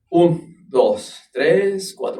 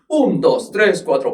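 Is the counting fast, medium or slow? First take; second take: medium; fast. First: The count is spoken at a medium tempo. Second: The count is spoken at a fast tempo. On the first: "¿lo puedes hacer a cuatro normal?" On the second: "¿lo puedes hacer más rápido? Claro"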